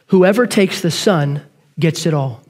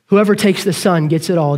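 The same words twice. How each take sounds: First: "whoever" stressed, slow falling close; slow emphatic punchline. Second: Said in the usual way. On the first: Shown as a demonstration. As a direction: draw out "whoever takes the Son".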